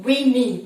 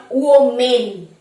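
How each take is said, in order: First: উইমেন as wi-min; correct pronunciation. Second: ওমেন slowly as oh-men; the mistaken ওমেন, starting on a round o; wrong pronunciation. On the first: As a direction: model উইমেন with two i sounds. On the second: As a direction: draw out ওমেন as spelt. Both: Shown as a demonstration. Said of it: "not ওমেন".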